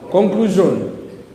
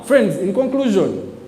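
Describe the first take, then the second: First: Conclusion said slowly and deliberately, every syllable drawn out; stressed drawn-out word. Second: Said in the usual way. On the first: Shown as a demonstration. Preacher drawing out the answer for the crowd, slow and stressed. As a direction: stretch out Conclusion to land the answer. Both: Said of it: "in what?".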